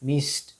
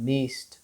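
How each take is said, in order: No difference in how they are said.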